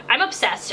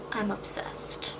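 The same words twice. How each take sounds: First: Said in the usual way. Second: Slow soft whisper of "I'm obsessed", barely voiced; breathy whisper. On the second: Real, not acted. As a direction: drop to a secret hush and savour "I'm obsessed". Whispered aside about her lip.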